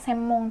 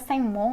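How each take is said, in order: First: The nasal before the m sounds like m. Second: The nasal before the m sounds like ng. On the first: The speaker calls it right. "orang Jepang lebih seneng nyebutnya semong" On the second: The speaker calls it wrong. "Bisa sengmong"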